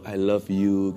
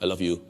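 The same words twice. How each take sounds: First: It is said warmly, with lively expression. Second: It is said flatly, like a robot. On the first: Real feeling is behind the words. The speaker calls it right. "dengan dengan ekspresi wah" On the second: No real feeling is behind the words. The speaker calls it wrong. "Robot kali"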